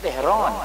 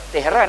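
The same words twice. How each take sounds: First: The name is said in an Iranian accent. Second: The name is said in a plain Malay accent. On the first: This is how Iranians say it. "dia kata Tehran, Tehran kan bunyi dia tu" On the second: This is not how Iranians say it. "dia tak kata Tehran"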